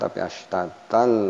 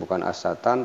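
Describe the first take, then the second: First: The n sound merges into an l sound. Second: A clear n sound ends the word. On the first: The speaker calls it right. "astatal masuk ke huruf uh, lam" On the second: The speaker calls it wrong.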